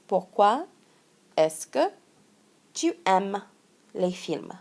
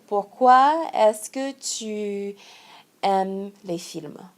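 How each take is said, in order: First: Said in the usual way. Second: Slow example. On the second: Shown as a demonstration. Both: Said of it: "for example".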